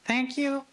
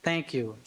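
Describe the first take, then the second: First: "Thank you?" lifted high and light, rising at the end; high-pitched thank you. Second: Said in the usual way. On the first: Shown as a demonstration. Lawyer imitating the high voice on the tape. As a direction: squeak "Thank you?" up high like the woman officer. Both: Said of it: "a high-pitched voice saying".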